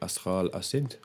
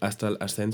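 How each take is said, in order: First: The name is said with a French pronunciation. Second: The name is said with an English pronunciation. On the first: The speaker calls it right. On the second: The speaker calls it wrong. "no es"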